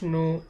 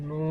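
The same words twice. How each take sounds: First: The vowel is short and clipped. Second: The vowel is held long and stretched.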